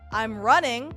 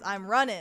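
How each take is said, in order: First: The word ends with a full 'ing' sound. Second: The word ends with a shortened 'in' sound. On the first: "when you have something that ends in ing" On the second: "but then you just do in apostrophe"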